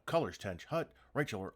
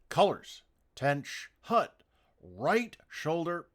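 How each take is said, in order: First: The commands are rushed out quickly together. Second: The commands are given slowly and deliberately. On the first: The speaker calls it wrong. "you're racing through the commands" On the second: The speaker calls it right. "when it should be"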